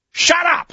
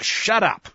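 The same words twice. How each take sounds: First: High, loud outburst; sharp rebuke. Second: Restrained firm order; firm rebuke. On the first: Acted. Samuel to the king, an explosive silencing shout. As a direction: cut him off with a shouted order. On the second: Shown as a demonstration. Samuel to the king, a contained firm rebuke. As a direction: say it as a firm silencing command. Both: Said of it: "the tone of the text is more like".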